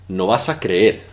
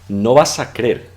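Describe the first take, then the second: First: The e vowel in creer is long. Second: The e vowel in creer is short. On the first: This is the full, careful way. "instead of" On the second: This is the casual, colloquial way. "it's very popular to make it a short pronunciation, or drop an E"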